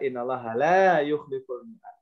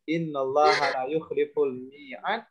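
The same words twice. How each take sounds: First: The vowel in 'la' is long. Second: The vowel in 'la' is short. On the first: God does not break his promise. The speaker calls it right. "seharusnya kita baca" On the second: God breaks his promise. The speaker calls it wrong. "Tahu kesalahannya"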